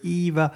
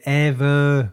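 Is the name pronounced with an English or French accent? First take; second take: English; French. First: The name is said with an English accent. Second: The name is said with a French accent. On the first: This is the original version. "au lieu de Eva" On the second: This is the dubbed version. "Puis c'est Eva"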